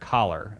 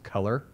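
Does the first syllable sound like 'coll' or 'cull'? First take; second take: coll; cull. First: The first syllable sounds like 'coll'. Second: The first syllable sounds like 'cull'. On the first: This is how it was said growing up in Appalachia. The speaker calls it wrong. "I said collar" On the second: This is the standard pronunciation learned later. The speaker calls it right. "one word I couldn't pronounce coming from Appalachia to college was"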